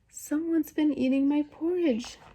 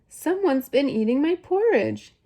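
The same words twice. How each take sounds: First: It is said in a wee, small voice. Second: It is said in a medium-sized voice.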